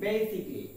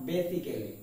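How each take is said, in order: First: Basically in three syllables, "BAY-sik-lee"; correct pronunciation. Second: Basically in four syllables, "BE-si-ke-lee"; common mispronunciation. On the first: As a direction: drop the AL in basically. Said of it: "the pronunciation is basically". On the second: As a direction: sound every vowel in basically. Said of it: "not basically". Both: Shown as a demonstration.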